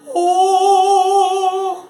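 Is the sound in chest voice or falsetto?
falsetto. A light, airy sound in falsetto. "et voici un son en voix de fossé"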